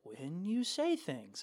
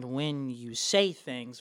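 First: "say" floated upward instead of punched; no punch, lilting. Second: "say" hit hard and stretched out; "say" punched hard, drawn out. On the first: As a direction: glide slowly through "when you say things" without punching "say". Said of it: "versus, like". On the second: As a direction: throw weight behind the word "say". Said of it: "throw a lot of punch behind". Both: Shown as a demonstration.

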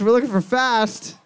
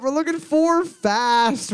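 First: Said in the usual way. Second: Drawn-out high announcement; slow announcing call. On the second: Acted. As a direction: stretch it out like a quiz host.

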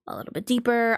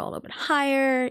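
First: Slightly deepened demo voice; deeper voice. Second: Lightly raised, higher demo voice. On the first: Streamer showing vocal range, a little deeper. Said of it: "go a little bit deeper". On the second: Streamer showing vocal range, a little higher. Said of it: "go a little bit higher". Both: Shown as a demonstration.

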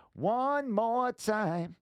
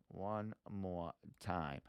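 First: High, loud, long-held singing notes; sung, belt it out slowly like a song hook; playful drawn-out singing. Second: Soft, slow and low; slow, hushed aside to self; quiet and drawn out. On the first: Pretend. Bursts into song while clicking around. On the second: Real, not acted. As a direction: say it slowly under your breath. Same words before the sung take.

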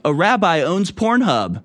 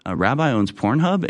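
First: High-pitched, upbeat boast; proud announcement. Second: "Pornhub" rising as a question; questioning repeat. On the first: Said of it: "why'd you say it like that". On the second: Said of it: "say it in that tone". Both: Acted.

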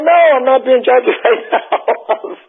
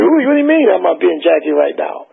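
First: Laughing denial. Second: Said in the usual way. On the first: Retold or imitated. To the Four Tops, denying he's imitating [name], laughing. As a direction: laugh through the denial, a bit slow.

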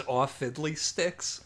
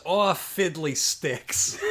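First: Slow, mild mock mobster; a lightly voiced disappointed goon; slow deadpan goon. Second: Slow, mild mock mobster, half laughing; deadpan goon. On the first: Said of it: "the best line delivery I've ever heard". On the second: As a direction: drag it out like a lazy henchman. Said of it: "Junk goes".

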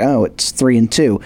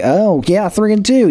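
First: Lower, deflated take; unimpressed shrug. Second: Higher, bright mock cheer; mock impressed. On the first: Retold or imitated. Fan shrugging at a shaky record, lower and deflated. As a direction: say it like the record means nothing. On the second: Fan proudly touting a winning record, mock impressed and higher. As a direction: sound like a fan who's thrilled with the record. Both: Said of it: "You're like".

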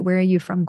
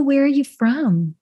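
First: Said in the usual way. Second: Light Southern drawl on the question; Southern accent. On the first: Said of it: "I recognize I just put a". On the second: Shown as a demonstration. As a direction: ask it with a country lilt. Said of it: "a little country accent on that one".

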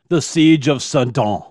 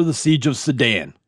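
First: Sedan said French-style as suh-DAHN; French-style pronunciation. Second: Sedan said English-style as suh-DAN; anglicised pronunciation. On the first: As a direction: end Sedan on an open "ah", no hard n. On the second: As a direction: end Sedan on a flat "an", like the car. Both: Shown as a demonstration. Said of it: "I think it's pronounced Sedan".

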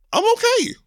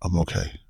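First: Very high-pitched squeak, far above usual; out of podcast voice. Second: Composed, back down in a normal register; podcast voice. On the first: Real, not acted. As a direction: squeal it out, voice shooting way up. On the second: Shown as a demonstration. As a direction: settle into a controlled host's voice. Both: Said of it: "Oh, let me get my podcast voice".

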